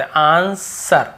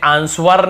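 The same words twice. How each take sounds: First: आंसर drawn out slowly as "aan-sar"; correct silent-w pronunciation. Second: आंसर misread as "aans-var", w sounded; wrong pronunciation demo. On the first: Teacher models it for learners: slow आंसर, w silent. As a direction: stretch आंसर, no w sound at all. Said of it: "बस आंसर". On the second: Teacher shows learners what to avoid: आंसर as "aans-var". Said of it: "हमें आंसर नहीं पढ़ते". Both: Shown as a demonstration.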